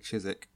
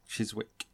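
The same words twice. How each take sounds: First: The w sound is left out entirely. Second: The w sound is pronounced in the middle. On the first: "we like to have excessive amount of like letters that we don't pronounce" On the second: "it's like C-H-I-S-W-I-C-K"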